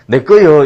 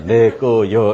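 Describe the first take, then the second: First: "내 거요" punched out very loud; loud claim. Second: "내 거요" drawn out, each syllable apart. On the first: Giant claiming his garden, "내 거요" in a loud burst. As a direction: blurt "내 거요" high and loud. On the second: Giant's three-letter notice, "내 거요" read out syllable by syllable. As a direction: spell out "내 거요" as three separate beats. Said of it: "세 글자". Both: Acted.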